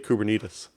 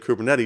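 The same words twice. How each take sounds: First: It is said to rhyme with diabetes. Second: It is said the usual way, not like diabetes. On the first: "you say Kubernetes, kind of like uh, diabetes" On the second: "instead of saying Kubernetes"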